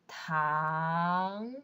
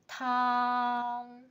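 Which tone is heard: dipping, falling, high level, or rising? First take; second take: rising; high level. First: The pitch rises from mid to high. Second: The pitch stays high and level. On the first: "Second tone" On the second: "First tone"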